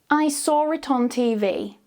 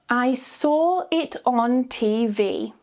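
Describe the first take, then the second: First: It is said naturally, sounds joined smoothly. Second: It is said very slowly, word by word. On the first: "then naturally joining the sounds together smoothly with the intrusive R" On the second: "Say each sentence very slowly first"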